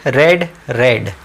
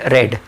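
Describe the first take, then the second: First: Both words said as रेड, rhyming with bed, not रीड, slowly; teacher drawing out रेड slowly so students catch it; read as red. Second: Said in the usual way. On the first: Shown as a demonstration. Teacher showing students that written read sounds like red, slowly. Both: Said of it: "इसकी pronunciation रेड होती है".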